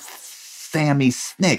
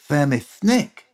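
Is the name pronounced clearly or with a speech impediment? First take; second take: clearly; impediment. First: The name is pronounced clearly and normally. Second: The name is pronounced with a speech impediment. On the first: This is how the name should sound. The speaker calls it right. "I couldn't say Sammy Snick" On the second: This is how a child with malformed teeth said it. The speaker calls it wrong. "I talked like this. My teeth never formed right"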